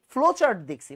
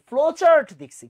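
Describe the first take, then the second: First: Said in the usual way. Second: Higher and louder, punching chart; emphatic louder repeat. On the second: Shown as a demonstration. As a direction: drive the point home to the class. Teacher repeats key phrase louder.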